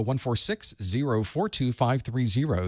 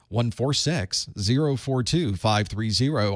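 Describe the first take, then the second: First: Said in the usual way. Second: Slow infomercial number read; mock ad read. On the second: Host joking that operators are standing by, mock infomercial. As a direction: read it like a late-night TV ad. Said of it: "Operators are standing by".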